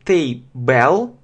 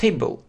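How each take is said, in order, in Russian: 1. Второй слог произносится полностью, как в слове «bell». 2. Второй слог сокращён и редуцирован. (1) "иногда произносит table, bell" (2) "обычно просто был сокращает table"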